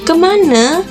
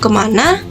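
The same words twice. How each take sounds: First: The word ends in a weak e vowel. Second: The word ends in a full a vowel. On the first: It is the refined palace dialect form. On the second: It is the standard Malay form.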